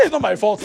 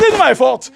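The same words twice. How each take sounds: First: Said in the usual way. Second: Louder, higher protest through laughter; laughing protest. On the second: Retold or imitated. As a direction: laugh while pleading innocence. Defending himself to Jesus.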